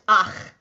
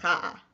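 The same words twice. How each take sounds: First: 'ach', vowel first, then the guttural ch; correct ach reading. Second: 'cha', guttural ch first, then the vowel; wrong cha reading. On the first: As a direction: say ach with the ch closing it. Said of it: "the combination is pronounced ach". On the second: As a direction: say cha as the mistaken reversed reading. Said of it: "not cha". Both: Shown as a demonstration.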